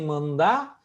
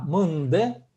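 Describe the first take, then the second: First: The word ends in an open 'a' vowel. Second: The word ends in a fronted 'e' vowel. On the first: The speaker calls it wrong. "не мында" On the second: The speaker calls it right. "а мынде"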